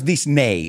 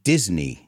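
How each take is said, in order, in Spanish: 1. Se dice con una pronunciación de estilo español. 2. Se dice con una pronunciación de estilo inglés. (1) "técnicamente no es Disney" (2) "it's Disney"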